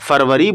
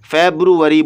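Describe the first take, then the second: First: The word has a Hindi-Urdu pronunciation. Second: The word has an English pronunciation. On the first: "ये भी उर्दू और हिंदी में फरवरी बोला जाता है" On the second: "जब इसको इंग्लिश में बोलते हैं"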